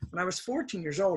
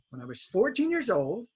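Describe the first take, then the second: First: The sentence is said at a fast pace. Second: The sentence is said at a slower pace.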